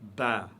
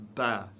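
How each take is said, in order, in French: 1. La syllabe est prononcée légère et fine. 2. La syllabe est prononcée légère et fine.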